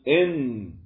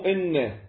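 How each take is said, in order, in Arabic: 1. النون الأخيرة مخففة. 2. النون الأخيرة مشددة. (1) "إذا رفعنا التجديد يصيرن مخففات، فنقول إن" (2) "مو إن"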